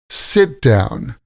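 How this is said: The stress is on the first word. It is used as a noun. "when we use the noun, we stress the first word"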